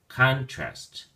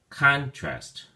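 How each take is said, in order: First: The stress is on the first syllable. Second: The same.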